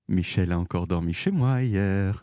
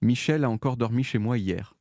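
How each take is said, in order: First: It is said in a sly, knowing tone. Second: It is said in a flat, neutral tone. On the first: Something intimate happened. "smiley clin d'œil" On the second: It is a dry statement of fact. "avec cette intonation-là, très très neutre"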